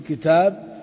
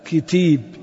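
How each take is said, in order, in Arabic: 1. الألف الطويلة هنا صريحة ومفتوحة. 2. الحركات تميل نحو الياء، وذلك بالإمالة. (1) "نقول في كتاب" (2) "فسنميل الألف ونميل معها بداهة إيش؟ الفتحة"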